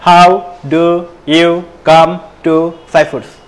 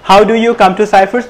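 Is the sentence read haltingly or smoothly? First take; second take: haltingly; smoothly. First: The sentence is read haltingly, without fluency. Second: The sentence is read smoothly and fluently. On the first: The speaker calls it wrong. "এরকম না" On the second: The speaker calls it right. "সাবলীল ভাবে পড়তে হবে"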